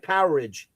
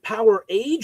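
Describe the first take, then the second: First: It is one word rhyming with outage. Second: It sounds like two words, power and age. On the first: "some people say like an outage" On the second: "Is it Power Age"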